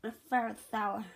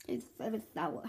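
First: Eating sour candy. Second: Softer, puckered from the sour bite; eating sour candy. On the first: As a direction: mouth puckered, chewing sour candy. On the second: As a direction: sour mouthful, said quietly. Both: Real, not acted.

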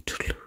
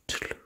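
The two takes are said the same way.

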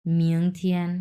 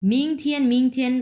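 First: "মিয়ং থিয়েন" as mi-ong thien, pitched lower; low, careful "মিয়ং থিয়েন" with an o glide; correct pronunciation. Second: "মিং থিয়েন" with a short i, no o glide; higher-pitched "ming thien", the vowel left plain; wrong pronunciation demo. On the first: Teacher showing students the right way, lower "মিয়ং থিয়েন" as mi-ong. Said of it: "এরকম". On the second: Teacher showing students what to avoid, higher "মিং থিয়েন" without the glide. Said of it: "এটা কিন্তু হবে না". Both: Shown as a demonstration.

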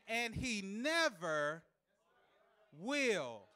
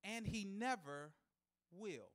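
First: Never drawn out very slowly, will dropped; stretched emphasis. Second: Soft, slow drop on never will; understated line. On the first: Preacher repeating for a tough crowd, slow stretched stress. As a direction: hold never long, then land will. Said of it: "I said". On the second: Preacher testing the crowd, soft and slow. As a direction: let it fall away quietly. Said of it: "And here's a shout". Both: Acted.

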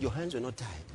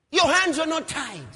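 First: Low, soft, sorrowful rebuke; subdued mock lament; quiet reproach. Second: High, loud protest; preacher's impassioned mock lament; outraged reproach. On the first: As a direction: say it low, as if to the dead. Same reproach repeated, now low. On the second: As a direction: cry it out at the dead man. Acting David's outcry over Abner.

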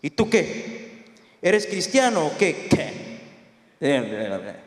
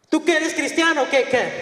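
First: Low, slow interrogation; deep, drawn-out questioning, ending very low; big military man. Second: Higher, quicker challenge; acted high-voiced interrogation; high-pitched questioning. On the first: Retold or imitated. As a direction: play a big officer sizing someone up. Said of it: "grande el hombre". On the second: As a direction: repeat the officer's question in a raised pitch. Officer's question acted a second time.

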